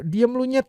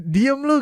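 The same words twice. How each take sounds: First: Real-sounding anger demo. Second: High, loud snap; angry demo. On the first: Teacher shows how the swear word makes the anger felt. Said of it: "kerasa marahnya". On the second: Teacher shows the short angry version, loud and high. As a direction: bark it angrily. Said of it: "gitu kan beda". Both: Shown as a demonstration.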